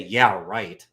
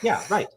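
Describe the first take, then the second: First: It is said in a sarcastic, mocking tone. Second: It is said in a sincere, agreeing tone. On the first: The answer is incorrect. "That means the opposite. You're being sarcastic" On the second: The answer is correct. "You're saying correct"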